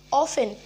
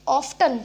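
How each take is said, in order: First: "often" with no t, OFF-en; silent t. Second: "often" with the t sounded, OF-tun; mispronounced often. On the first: Teacher correcting the word, often said with silent t. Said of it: "टी होता है वो silent". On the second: Teacher showing the mistake, often said with a t. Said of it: "it's not often". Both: Shown as a demonstration.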